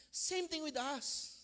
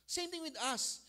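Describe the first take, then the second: First: Slow emphatic. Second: Said in the usual way. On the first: Shown as a demonstration. Preacher stretching the line slowly for emphasis. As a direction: stretch each word out slowly.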